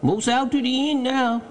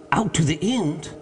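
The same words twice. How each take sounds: First: High-pitched dialect call; Jupiter, obedient servant. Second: Raised-pitch, incredulous question; mild mock scream. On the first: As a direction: call down your progress from the limb. Jupiter reports progress. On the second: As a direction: echo it back in understated astonishment. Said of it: "here fairly screamed Legrand". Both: A narrator's reading.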